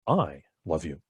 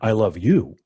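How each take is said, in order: First: The stress is on "I". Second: The stress is on "you".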